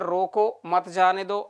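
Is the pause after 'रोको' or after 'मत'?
after रोको. There is a pause right after 'रोको'.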